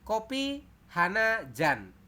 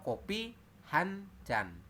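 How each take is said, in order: First: The number word is said in full as 'hana'. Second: The number word is shortened to 'han'. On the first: The speaker calls it wrong. "Itu salah" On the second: The speaker calls it right. "Yang benar adalah"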